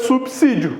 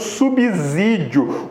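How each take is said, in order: First: The consonant after 'sub' sounds like 's'. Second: The consonant after 'sub' sounds like 'z'. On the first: The speaker calls it right. "Então é subsídio" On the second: The speaker calls it wrong. "não saia por aí falando subsídio"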